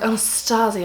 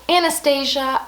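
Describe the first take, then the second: First: It is said with a British accent. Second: It is said with an American accent.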